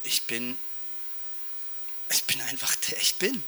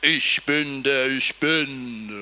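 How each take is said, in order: First: Soft, almost whispered, much quieter; hushed and quiet, partly whispered; gentle quiet God. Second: A lightly booming, slow and lower divine voice; slow, lower and grand, a hint of thunder; mighty God voice. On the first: Retold or imitated. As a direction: say it softly, like a calm secret. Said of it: "ist er ganz anders gewesen". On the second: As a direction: announce it slowly like an awesome God. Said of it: "wie so eine krasse Stimme".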